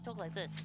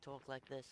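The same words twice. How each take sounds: First: The voice is high-pitched and thin. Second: The voice is lower and fuller. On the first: The speaker calls it wrong. "it's really annoying and high-pitched" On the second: The speaker calls it right. "I speak much better"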